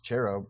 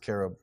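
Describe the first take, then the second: First: The word begins with a ch sound. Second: The word begins with a k sound. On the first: The speaker calls it wrong. "everyone says cherub" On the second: The speaker calls it right. "it's really supposed to be pronounced carob"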